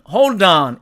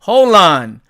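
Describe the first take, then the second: First: The d sound is clearly pronounced. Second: The d sound is dropped, leaving an l. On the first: "사전식 발음으로는 hold on 이렇게 발음이" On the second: "이 d를 삭제를 합니다"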